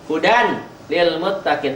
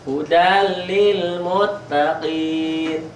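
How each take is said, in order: First: The n sound is pronounced before the l. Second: The n merges into a doubled l sound.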